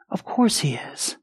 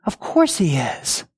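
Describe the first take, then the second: First: Breathy whisper of certainty. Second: Said in the usual way. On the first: Shown as a demonstration. Preacher to the congregation, whispering the reassurance. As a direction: whisper it like a secret truth.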